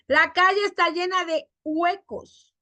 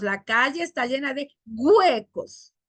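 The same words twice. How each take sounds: First: Said in the usual way. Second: "huecos" opened with g, güecos; hard g at start of "huecos". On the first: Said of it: "No decimos". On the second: Shown as a demonstration. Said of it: "Cambiamos la H por G".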